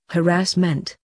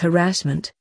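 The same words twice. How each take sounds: First: The stress is on the first and third syllables. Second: The main stress is on the second syllable. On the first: The speaker calls it right. "the correct emphasis should be on the first and the third syllables" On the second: The speaker calls it wrong. "Possibly today's favorite mispronunciation is harassment, pronounced as harassment"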